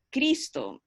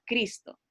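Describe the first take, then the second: First: CRIS-to, weight on CRIS; stress on first syllable. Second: CRIS-to with a firm first beat; stress on first syllable. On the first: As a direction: lean on the first syllable of Cristo. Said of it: "Con más énfasis en, en la primera sílaba". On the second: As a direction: hit the CRIS of Cristo. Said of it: "en la primera sílaba". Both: Shown as a demonstration.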